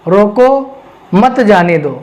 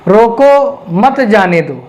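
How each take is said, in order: First: There is a pause after the word 'roko'. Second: The same.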